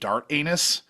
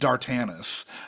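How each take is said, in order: First: It sounds like two separate words, dart and anus. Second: It is run together as one blended name. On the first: This is how a reader might guess it from the spelling. The speaker calls it wrong. "if I were looking at this, I would pronounce it" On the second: This is the name's actual pronunciation. The speaker calls it right. "apparently it's pronounced"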